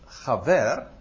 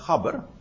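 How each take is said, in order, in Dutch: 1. Het woord wordt uitgesproken in zijn Hebreeuwse vorm. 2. Het woord wordt uitgesproken in zijn Amsterdamse vorm. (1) "het Hebreeuwse gaver" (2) "ik zou het ook op zijn Amsterdams kunnen zeggen"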